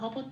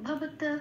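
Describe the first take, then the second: First: The final t sound is left out entirely. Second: The final t is said softly, with no vowel. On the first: The speaker calls it wrong. "আবার ভব তো বলতে পারবো না" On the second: The speaker calls it right. "আবছা করে বলে ছেড়ে দিতে হবে সফটলি"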